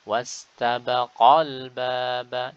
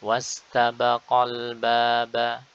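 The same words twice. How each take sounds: First: The voice is raised on the 'qal' syllable. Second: The 'qal' syllable is said plainly, without emphasis. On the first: It signals that a dual alif was originally there. The speaker calls it right. "Kita angkat" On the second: The hidden dual alif is not signalled. The speaker calls it wrong. "Secara teori alif bertemu dengan hamzah wasal maka gugur, sehingga langsung pada qaf kemudian lam"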